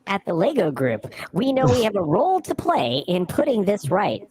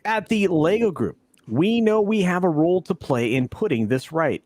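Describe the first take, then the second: First: It is read in a put-on character voice. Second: It is read in a plain voice.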